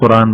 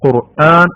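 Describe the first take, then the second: First: The syllables run together without a catch. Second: A glottal catch separates the last syllable. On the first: This is how people commonly say it in everyday speech. The speaker calls it wrong. "നമ്മളെ ചേട്ടന്മാരൊക്കെ പറയുന്ന പോലെ ഖുറാൻ ഖുറാൻ എന്നാ പറയാ" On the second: This is how it must be said in recitation. The speaker calls it right. "ഖാഫും വേണം ഖുർആൻ എന്ന ഹംസയും വേണം"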